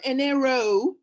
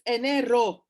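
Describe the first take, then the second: First: The word is said with an American accent. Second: The word is said with a native accent. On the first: The speaker calls it wrong. "Please don't be so American. it's not enero" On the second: The speaker calls it right. "it's enero"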